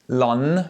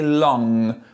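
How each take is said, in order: First: The final nasal uses the front of the tongue. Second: The final nasal uses the back of the tongue. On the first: The speaker calls it wrong. "I don't say long, lon with the front part of my tongue" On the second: The speaker calls it right. "I say long with the back part of my tongue"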